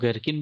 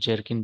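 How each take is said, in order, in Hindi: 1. यह शब्द hard g की आवाज़ से शुरू होता है। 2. यह शब्द j की आवाज़ से शुरू होता है। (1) "इसको गरकिन भी बोलते हैं" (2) "इसको जर्किन भी बोलते हैं"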